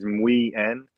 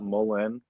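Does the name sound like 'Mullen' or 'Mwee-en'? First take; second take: Mwee-en; Mullen. First: The name is said as mwee-en, without an l. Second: The name is said as mullen, with an l. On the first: The speaker calls it right. "we've been pronouncing it wrong the whole time. It's it's Mui-en" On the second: The speaker calls it wrong. "not Mullen"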